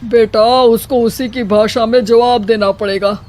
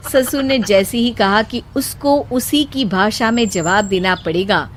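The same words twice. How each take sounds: First: A hint of an old father-in-law giving advice; father-in-law advising. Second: Said in the usual way. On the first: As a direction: counsel her earnestly.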